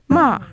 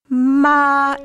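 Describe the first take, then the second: First: The pitch drops rapidly downward. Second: The pitch stays level and sustained. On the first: "The fourth tone, which is a rapid downward gliss" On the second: "it's a flat tone. It's really sung"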